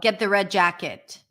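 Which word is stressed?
jacket. The main stress falls on jacket. The listener should simply fetch the jacket. "Just grab it from the chair"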